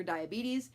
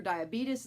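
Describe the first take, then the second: First: "diabetes" as dye-uh-BEE-teez; correctly pronounced diabetes. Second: "diabetes" as dye-uh-BEET-us; mispronounced diabetes. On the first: Vlogger rejects the term for viewers, "diabetes" as dye-uh-BEE-teez. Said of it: "please pronounce it diabetes". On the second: Vlogger rejects the term for viewers, "diabetes" as dye-uh-BEET-us. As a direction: end "diabetes" in "-us". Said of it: "you will not be hearing me say the word diabetes". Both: Shown as a demonstration.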